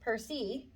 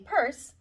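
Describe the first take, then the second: First: The final E is sounded as an extra syllable. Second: The final E is silent; one syllable. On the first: The speaker calls it wrong. "Don't circle it shh, like it's E and me" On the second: The speaker calls it right. "it's just called a purse"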